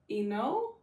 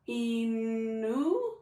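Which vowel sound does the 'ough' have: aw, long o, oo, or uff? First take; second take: long o; oo. First: The 'ough' is said as a long o. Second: The 'ough' is said as oo. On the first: "You want to try O?" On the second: "What about oo?"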